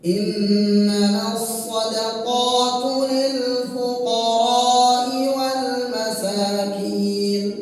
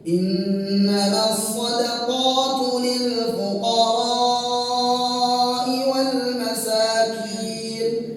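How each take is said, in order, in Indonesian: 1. Vokal sebelum hamzah dibaca pendek. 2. Vokal sebelum hamzah dibaca panjang. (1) "fuqara itu panjangnya kurang"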